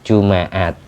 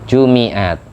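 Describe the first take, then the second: First: The m is followed by an a vowel. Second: The m is followed by an i vowel. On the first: "bisa dibaca fathah" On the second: "Ada yang membaca kasroh mim"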